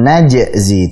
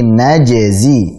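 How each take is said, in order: First: The j sound is cut off abruptly. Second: The j sound continues without a break. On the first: The speaker calls it wrong. "jangan diputus ya, jangan najzi" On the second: The speaker calls it right. "tapi najzi"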